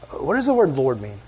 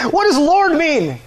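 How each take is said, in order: First: Said in the usual way. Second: High, slow, loud demand; mock yelling at an unresponsive crowd. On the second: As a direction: holler the question, drawn out. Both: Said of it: "Maybe I just wasn't loud enough".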